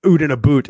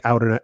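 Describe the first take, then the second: First: Canadian "out and a boot" with oo vowels; mock Canadian accent. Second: Said in the usual way. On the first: Shown as a demonstration. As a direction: exaggerate the Canadian oo sound. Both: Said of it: "as they would say in Canada".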